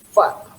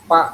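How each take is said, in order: First: The first sound is an f, teeth on lip. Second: The first sound is a p made with lips. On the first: The speaker calls it right. "Harusnya fa" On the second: The speaker calls it wrong. "fa itu berat, jadi pa"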